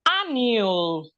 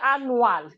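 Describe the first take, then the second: First: The vowel in the last syllable is reduced. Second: The vowel in the last syllable is fully pronounced. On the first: The speaker calls it right. "The A's is not saying anything" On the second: The speaker calls it wrong. "So we don't say annual"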